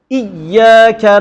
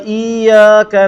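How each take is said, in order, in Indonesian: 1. Huruf y digandakan dengan tekanan yang berlebihan. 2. Huruf i dipanjangkan dan y tunggal. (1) "itu pun salah. Pasal dia tekan sangat" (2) "Salah. Pasal dia panjangkan i. Dia tak tasydidkan ya"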